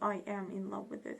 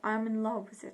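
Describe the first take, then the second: First: I am is said as two full words. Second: I am is contracted into one syllable. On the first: The speaker calls it wrong. "So not" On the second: The speaker calls it right. "we can say"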